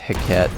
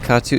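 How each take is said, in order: First: The ending sounds like 'baguette'. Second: The ending does not sound like 'baguette'. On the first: The speaker calls it right. "like baguette, because it's French" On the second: The speaker calls it wrong. "I just noticed I mispronounced it"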